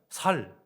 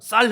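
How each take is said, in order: First: The first consonant is a plain 's'. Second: The first consonant is a tense 'ss'. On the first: The speaker calls it wrong. "그들은 살, 뭐 사움 뭐 이렇게 발음하는 거죠" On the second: The speaker calls it right. "쌀 해봐"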